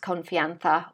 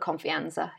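First: The z is said as a th sound. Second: The z is said as an s sound. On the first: "pronounce Confianza with a th" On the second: "you can call it Confianza if you like"

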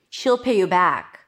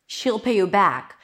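First: 'She will' is contracted into one syllable. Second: The same.

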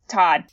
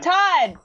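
First: It is said flatly, without enthusiasm. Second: It is said loudly, with enthusiasm.

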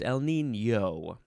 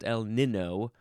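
First: The second N has a Y sound after it. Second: The second N is a plain N sound. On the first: The speaker calls it right. "makes the N sound like it has a Y sound after it" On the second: The speaker calls it wrong. "It's not El Nino"

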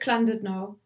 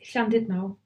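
First: The name is said with English sounds. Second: The name is said with Welsh sounds. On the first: The speaker calls it wrong. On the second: The speaker calls it right. "but it's Llandudno"

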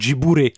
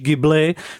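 First: The name is pronounced the Japanese way. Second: The name is pronounced the Italian way. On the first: This is how Japanese speakers read the name. "tak se to přepisuje jako Jiburi. Takže oni to čtou jako Jiburi" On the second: This is how the Italian plane's name is said. "ten italský letoun, který se teda asi vyslovuje spíš Ghibli"

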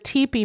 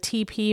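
First: It sounds like the tent word teepee. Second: It sounds like the two letters T and P. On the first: A cone-shaped tent is meant. The speaker calls it right. "because I don't mean to build it out of toilet paper" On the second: Toilet paper is meant. The speaker calls it wrong. "I better pronounce that differently"

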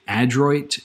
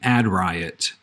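First: The name sounds like 'adroit'. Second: The name sounds like 'ad riot'. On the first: The speaker calls it right. "I believe it's technically Adroit Theory" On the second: The speaker calls it wrong. "a brewery that I always mispronounce. I call them Ad Riot"

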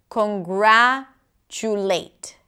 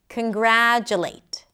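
First: The first vowel is said as a full vowel. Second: The first vowel is reduced to a schwa.

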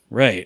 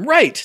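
First: It is said in a flat, deflated tone. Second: It is said in an excited, upbeat tone.

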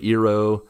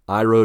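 First: The name has a Japanese-style pronunciation. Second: The name has an ordinary American English pronunciation. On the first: "they tried to be more accurate with how they pronounced the names" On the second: "more Americanized"

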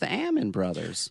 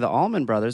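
First: The name is said without an L sound. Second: The name is said with an L sound. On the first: This is how the family says it. The speaker calls it right. "and it's" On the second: This is how most people say it. The speaker calls it wrong. "They all say"

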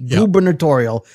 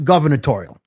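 First: The word is said with a B sound. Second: The word is said with a V sound. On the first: The speaker calls it right. "G-U-B, gubernatorial" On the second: The speaker calls it wrong. "not gubernatorial"

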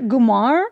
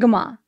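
First: The word ends with an R sound. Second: The word ends in a vowel without R. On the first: "Do you say gumar?" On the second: "I say guma"

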